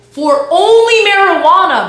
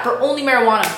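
First: High and loud, slowly stretched "only marijuana"; stretched-out shout of "only marijuana"; incredulous shout. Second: Said in the usual way. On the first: Real, not acted. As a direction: belt "for only marijuana" in disbelief. Repeats the phrase, first take loud.

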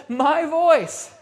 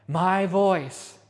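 First: "My voice" pitched high and loud; emphatic proclamation. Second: "my voice" dropped well down in pitch; measured repetition. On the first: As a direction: proclaim "My voice" with raised, forceful voice. Preacher quoting Jesus, repeated for emphasis. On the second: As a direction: repeat "my voice" low and firm. Preacher repeats the quote, lower. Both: Retold or imitated.

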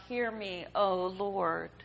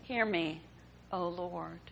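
First: Put-on mother pleading for her dying child, calling out to God; crying out to the Lord. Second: Fading, lower repeat of the plea; softer echoed plea. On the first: Hagar's desperate cry to the Lord, first time. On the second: Hagar repeating her cry to the Lord, fading and quieter. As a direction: let it sink lower and quieter. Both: A narrator's reading. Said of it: "all others cried out".

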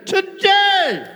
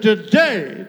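First: High, shouted TODAY; TODAY flung out far higher, in a preacher's shout; emphatic cry. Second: Said in the usual way. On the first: Acted. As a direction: cry out "today" as a soaring proclamation. Repeats Christ's word as climax.

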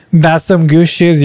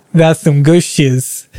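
First: Said in the usual way. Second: "That's some good shiz" drawn out very slowly; savouring it slowly on repeat. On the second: Real, not acted.

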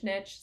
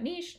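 First: Niche said as "nitch", short i; "nitch" pronunciation. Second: Niche said as "neesh", long ee; "neesh" pronunciation. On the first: Podcaster setting the two versions side by side, "nitch" pronunciation. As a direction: say niche with a hard ch ending, like pitch. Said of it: "or whether you pronounce it niche". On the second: Podcaster setting the two versions side by side, "neesh" pronunciation. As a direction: say niche with a soft sh ending, like leash. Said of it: "whether you pronounce it niche". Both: Shown as a demonstration.

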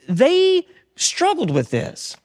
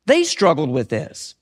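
First: High, slow and drawn out; pitched up, unhurried emphasis. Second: Low, slow, subdued repeat; sinking low and heavy. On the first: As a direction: lift it high and stretch every word. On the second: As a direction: drop the voice and draw it out. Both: Shown as a demonstration.

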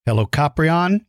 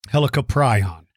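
First: Helicoprion as "hel-oh-KOP-ree-on", ending "ree-on"; Helicoprion said one way. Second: Helicoprion as "hel-uh-kuh-PRY-on", ending "pry-on"; Helicoprion said the other way. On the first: Host showing kids the first way to say Helicoprion, "ree-on" ending. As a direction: say Helicoprion with "pree-on" at the end. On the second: Host showing kids the second way to say Helicoprion, "pry-on" ending. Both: Shown as a demonstration. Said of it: "Either one of them is correct".

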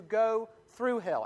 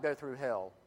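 First: Slow, raised pitch on "go through hell"; weighty emphasis. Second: Said in the usual way. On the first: Shown as a demonstration. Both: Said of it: "not like we talk about".

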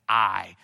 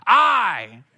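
First: Said in the usual way. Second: Top-of-the-voice shout, pitched high; screamed out. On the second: Retold or imitated. Newly baptized kid casting a first vote, screamed out. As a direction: yell it as loud as you can. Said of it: "at the top of my voice, I screamed out".

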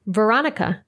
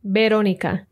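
First: Veronica as vuh-RON-ih-kuh; English pronunciation. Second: Veronica as beh-ROH-nee-kah; Spanish pronunciation. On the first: Teacher contrasting names between languages, English Veronica. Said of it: "followed by the English pronunciation". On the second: Teacher contrasting names between languages, Spanish Veronica. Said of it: "I'll read the Spanish pronunciation first". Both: Shown as a demonstration.

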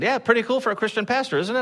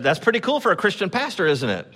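First: Higher, faster retold boast; bigger proud quip. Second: Retold boast, lightly higher; proud quip. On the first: Pastor repeats the boast to the stranger, higher and quicker. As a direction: repeat the tease with more gleeful push. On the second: Pastor retells teasing the lighting guy, light proud quip. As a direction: tease the stranger with a proud grin. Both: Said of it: "I said".

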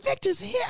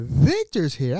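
First: High giddy squeal of Victor's here; excited. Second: Said in the usual way. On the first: Retold or imitated. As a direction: squeal the question with joy. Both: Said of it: "I was excited".

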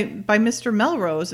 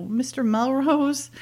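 First: Said in the usual way. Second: Slow, higher, drawn-out MISTER MELROSE; retold knowing reaction. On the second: Retelling her reaction to hearing who ordered it, lightly mock-knowing. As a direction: draw out "Mister Melrose" in mild mock recognition.

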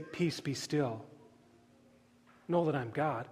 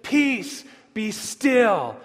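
First: Hushed, lowered voice of comfort; gentle reassurance. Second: Raised, forceful command; acted order to wind and waves; commanding the storm. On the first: Retold or imitated. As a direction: say it quietly, as if soothing frightened followers. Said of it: "he doesn't turn to the disciples and say". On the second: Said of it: "He stands up into the chaos of the storm".

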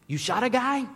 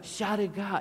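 First: High, loud incredulous question; shocked disbelief. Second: Mock French accent, pitched high; heavy French accent. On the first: Retold or imitated. Lost tourist mishearing a French stranger, shocked disbelief. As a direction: blurt it out in alarmed disbelief. Acts out his shocked misunderstanding. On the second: French stranger repeating himself to a confused tourist, French accent. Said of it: "And that's his accent".

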